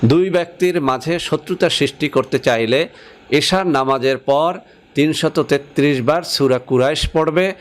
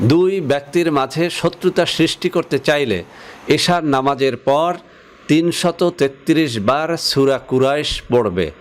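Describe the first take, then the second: Both takes have the same delivery.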